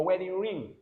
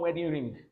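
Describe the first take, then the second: First: "ring" ending on ng, no hard g; "ring" closed on the nasal; silent g. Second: "ring" with a hard g released at the end; "ring" ending in an audible g; wrong sounded g. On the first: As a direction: say "wedding ring" with the last g unsounded. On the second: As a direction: mispronounce "wedding ring" as wedding ring-g. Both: Shown as a demonstration. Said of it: "not wedding ring".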